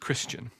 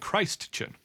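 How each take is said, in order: First: The first syllable is a short kris sound. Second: The first syllable sounds like the word Christ. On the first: It names a follower of Christ. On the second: It names someone raised as if they were Christ.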